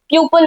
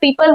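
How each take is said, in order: First: The first vowel sounds like 'pyoo'. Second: The first vowel sounds like 'pee'. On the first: The speaker calls it wrong. "बहुत लोग तो उसको pronounce ही गलत करते हैं" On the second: The speaker calls it right. "पीपल होता है"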